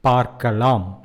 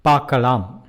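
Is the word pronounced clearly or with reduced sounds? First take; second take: clear; reduced. First: Every consonant and vowel is clearly pronounced. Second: Some sounds are muted and slurred together. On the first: It is formal speech. "let us see in formal Tamil" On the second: It is casual everyday speech. "that becomes பார்க்கலாம் in spoken Tamil"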